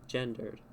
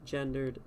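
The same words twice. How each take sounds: The two takes are said the same way.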